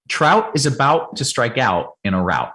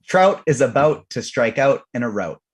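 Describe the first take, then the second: First: Trout, out and route said with a clear ow; Trout, out and route all with the American ow sound; S0's way of saying it. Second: Trout, out and route with his own Canadian vowel; his own way of saying it. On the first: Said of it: "I'll say it the way I say it". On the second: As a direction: say Trout, out and route the way you usually do. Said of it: "T J, please say the following". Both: Shown as a demonstration.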